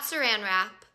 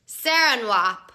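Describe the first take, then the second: First: The R sound in 'wrap' is clearly pronounced. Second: The R sound in 'wrap' is left out. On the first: The speaker calls it right. "not saran wrap" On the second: The speaker calls it wrong. "I guess I just dropped the R"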